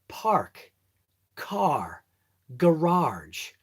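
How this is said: The r sounds are clearly pronounced. "I can actually say it the right way"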